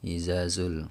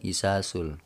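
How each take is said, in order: First: The consonant after the first vowel is 'z'. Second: The consonant after the first vowel is 's'. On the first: "Biasanya orang kalau ngajiin surah ini disapu rata ini kan" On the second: "Ada juga yang bilang isasul. Wah, itu udah parah banget itu"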